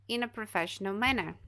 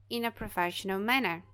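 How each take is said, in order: Both takes have the same delivery.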